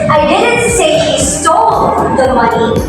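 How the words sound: The stress falls on the word stole. He took the money without stealing it. "the word is emphasized the word is stole"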